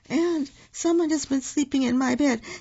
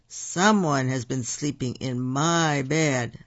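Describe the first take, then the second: First: It is said in a wee little voice. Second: It is said in a great big voice.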